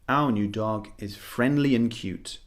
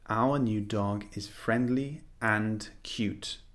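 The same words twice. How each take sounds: First: The word 'and' is a quick, short 'un'. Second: The word 'and' is fully pronounced with its D. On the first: The speaker calls it right. "We simply say" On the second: The speaker calls it wrong. "We don't really say"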